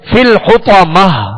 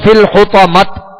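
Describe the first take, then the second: First: The last word ends with an h sound. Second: The last word ends with a t sound. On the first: The speaker calls it right. "बल्कि फिल हुतमह, आखिर में हा की आवाज निकालेंगे" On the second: The speaker calls it wrong. "यहां इस तरह वक्फ नहीं करेंगे फिल हुतमत, इस तरह नहीं"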